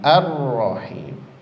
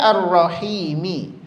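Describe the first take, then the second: First: The word ends on a bare final m. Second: The word ends with a short i vowel. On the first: The reader stops at the end of the verse. "karena kita waqaf, berhenti, maka otomatis dia menjadi sukun" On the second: The reading continues without stopping. "Aslinya ar-rahimi"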